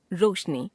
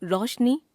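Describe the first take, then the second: First: Said in the usual way. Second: रोशनी as रौशनी, open o, rising; wrong pronunciation. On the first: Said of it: "शुद्ध". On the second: Shown as a demonstration. Teacher showing a common error, रोशनी as रौशनी. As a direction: widen रो to रौ in रोशनी. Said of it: "अशुद्ध".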